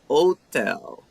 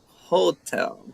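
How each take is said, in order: First: The word starts without an h sound. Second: The word starts with an h sound. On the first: "In Italian and Spanish, they don't pronounce the H" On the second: "But in German and English, it's like hotel"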